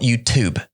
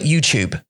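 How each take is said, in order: First: The second part starts with a plain t sound. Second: The second part starts with a ch-like sound. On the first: "美国人会说 YouTube" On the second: "In in in 英国的腔 tu because we call it YouTube"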